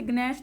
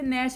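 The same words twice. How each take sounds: First: ग्नैश with a hard g before the n; wrong, sounded G. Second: नैश starting straight on n; नैश with no g sound at all; silent G. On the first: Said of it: "इसे ग्नैश नहीं पढ़ते". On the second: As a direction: drop the g, say नैश as "nash". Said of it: "इसे नैश पढ़ा जाता है". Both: Shown as a demonstration.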